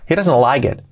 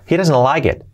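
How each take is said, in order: Both takes have the same delivery.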